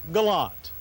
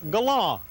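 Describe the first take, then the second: First: The name is pronounced the way it's spelled. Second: The name is not pronounced the way it's spelled. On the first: This is the more standard name the public prefers. The speaker calls it right. "pronounce the name the way it reads" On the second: This was the maker's original preferred name, which the public laughed at. The speaker calls it wrong. "they wanted automotive journalist types to pronounce the car's name Galant"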